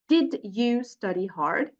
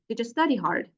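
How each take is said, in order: First: The d and y are said as separate sounds. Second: The d and y merge into a j sound. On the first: "when you say words separately" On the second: "when you pronounce them naturally"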